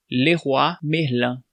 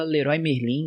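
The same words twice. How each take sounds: First: Leroy Merlin slow, as "Lerruá Merlã"; Leroy Merlin in French, "Lerruá Merlã" with a nasal end; French pronunciation. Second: Leroy Merlin as "Lerói Merlin"; Leroy Merlin said the Brazilian way, "Lerói Merlin"; Brazilian pronunciation. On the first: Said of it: "a pronúncia correta". (Leroy Merlin em francês, "Lerruá Merlã") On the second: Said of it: "Aqui a gente fala". (Leroy Merlin com pronúncia brasileira, "Lerói Merlin") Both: Shown as a demonstration.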